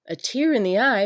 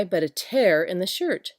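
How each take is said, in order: First: "tear" said as /tɪɹ/, rhyming with "ear"; "tear" like a teardrop, /tɪɹ/; "tear" pronounced "teer"; tear as in crying. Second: "tear" said as /tɛɹ/, rhyming with "air"; "tear" like ripping cloth, /tɛɹ/; "tear" pronounced "tare"; tear as in rip. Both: Shown as a demonstration. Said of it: "Try speaking these words".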